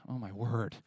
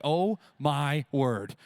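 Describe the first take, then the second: First: Said in the usual way. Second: Slow, drawn-out, louder sigh of heat; exasperated groan. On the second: Retold or imitated. Congregation sweating through camp heat, slow exasperated groan. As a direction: groan it like you're melting. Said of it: "where you're like".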